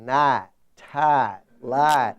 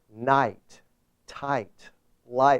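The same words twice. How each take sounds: First: It is said in a Southern accent. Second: It is said in a standard, non-Southern accent.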